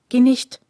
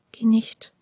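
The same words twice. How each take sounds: First: „Geh nicht“ called out louder, pleading. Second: Whispered plea. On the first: Prisoner begs the stranger to stay, louder plea. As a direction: beg her to stay, louder. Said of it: "wollte er sagen". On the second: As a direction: breathe it after her, alone. Prisoner whispers after her. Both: A narrator's reading.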